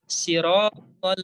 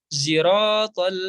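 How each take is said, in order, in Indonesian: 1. Kata ini diawali dengan bunyi s biasa. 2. Kata ini diawali dengan bunyi seperti z. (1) "Imam kumbul baca dengan sin" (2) "yang baca dengan zai"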